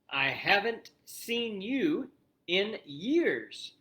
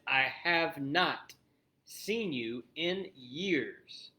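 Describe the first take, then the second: First: The two words are contracted into one syllable group. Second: The two words are said fully and separately. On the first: "That is short for have not" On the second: "the same as I have not seen you in years"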